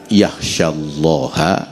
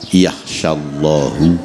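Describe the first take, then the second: First: The word ends with an 'a' vowel. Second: The word ends with a 'u' vowel. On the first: Only people with knowledge truly fear God. "Itu bisa dibaca yakhsyallaha" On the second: God honors only people with knowledge. "bisa dibaca yakhsyallahu"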